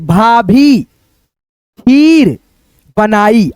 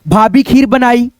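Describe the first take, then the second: First: The long vowels are stretched out slowly. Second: The phrase is read smoothly in one go. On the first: "इसको खींच करके पढ़ना है" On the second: "अब एक में पढ़ो"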